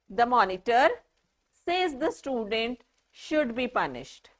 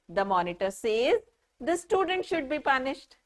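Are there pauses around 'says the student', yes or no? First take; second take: yes; no. First: There are pauses around 'says the student'. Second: It flows without pauses around 'says the student'.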